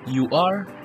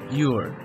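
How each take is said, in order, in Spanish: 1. Se dicen dos palabras completas por separado. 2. Las palabras se unen en una sola sílaba. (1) "Forma larga" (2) "Forma contraída"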